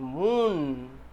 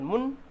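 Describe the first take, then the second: First: The vowel is a long oo sound. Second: The vowel is a short sound. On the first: The speaker calls it right. "long oo sound" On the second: The speaker calls it wrong. "It is not moon"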